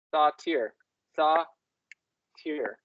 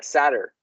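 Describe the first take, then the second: First: "satyr" said as sah-TEER; other pronunciation of satyr. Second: "satyr" said as SAT-er; English pronunciation of satyr. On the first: Trying out the goat word slowly, "satyr" as sah-TEER. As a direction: give "satyr" an open "sah" and a long "teer". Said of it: "oh, satyr". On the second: Explaining the goat word to a partner, "satyr" as SAT-er. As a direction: stress the start of "satyr", weak "er" ending. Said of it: "It's like satyr". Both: Shown as a demonstration.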